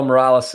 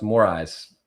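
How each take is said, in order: First: "Morales" in three syllables, stressed RAL; anglicized "Morales", L sounded; mispronounced surname. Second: "Moraes" as more-EYES, no L; correct pronunciation. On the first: Real, not acted. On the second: Shown as a demonstration. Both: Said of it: "it's actually pronounced Moraes".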